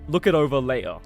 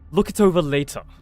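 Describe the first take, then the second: First: A Cockney accent with dropped T and R sounds. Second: A posh British accent with crisp, hard T sounds. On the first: "Versus like" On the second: "posh British they they go hard on the T"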